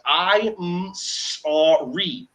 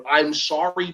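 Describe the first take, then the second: First: "I'm sorry" stretched very slow, each sound held long; drawn-out sorry. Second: Said in the usual way. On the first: Shown as a demonstration. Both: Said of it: "until you say the sounds".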